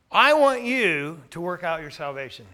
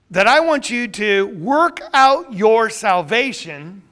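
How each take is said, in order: First: Want stressed, the rest calm and even. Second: Loud, slow, fervent preaching. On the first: Shown as a demonstration. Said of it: "Notice what he says". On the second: Real, not acted. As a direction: preach the line slowly with full force. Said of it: "I see a sermon coming on right now".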